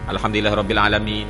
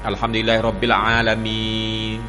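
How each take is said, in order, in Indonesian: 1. Vokal akhir hanya dibaca sebentar. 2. Vokal akhir dibaca dengan durasi sedang. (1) "dua dua harakat" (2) "tawassut. Tawassut ni mana empat"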